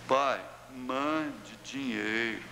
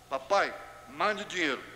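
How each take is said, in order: First: The request sounds gentle and affectionate. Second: The request sounds rude and demanding.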